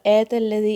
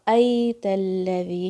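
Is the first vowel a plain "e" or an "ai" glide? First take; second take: plain e; ai glide. First: The first vowel is a plain "e" sound. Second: The first vowel glides as "ai". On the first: The speaker calls it wrong. "ऐसे नहीं बोलना है" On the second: The speaker calls it right. "या का लीन साउंड है"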